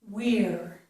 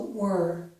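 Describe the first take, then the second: First: The vowel after the W sounds like 'ear'. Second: The vowel after the W sounds like 'er'. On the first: "The stressed pronunciation is we're" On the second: "The unstressed version of this is also were"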